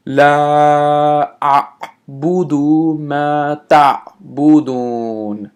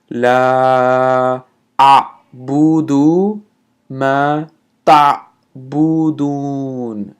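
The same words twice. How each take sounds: First: Slow, chanted recitation; Quran recitation. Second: لا أعبد ما تعبدون split with pauses; broken up slowly. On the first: Acted. Recites second verse. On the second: Shown as a demonstration. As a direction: say it word by word, slowly. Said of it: "let me break that up slowly".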